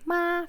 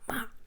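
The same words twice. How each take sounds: First: The pitch stays high and level. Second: The pitch drops sharply from high to low. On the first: "flat tone" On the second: "the hard one"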